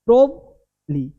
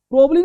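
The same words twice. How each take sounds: First: "प्रोबली" slow, a held prob then lee; corrected pronunciation. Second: "प्रोबली" quick and high, run together; wrong pronunciation. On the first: Teacher corrects the quick take, corrected pronunciation. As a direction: leave a gap in "प्रोबली" after prob. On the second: Teacher rejects this take, wrong pronunciation. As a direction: clip "प्रोबली" into a fast prob-lee. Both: Shown as a demonstration. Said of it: "प्रोबली नहीं".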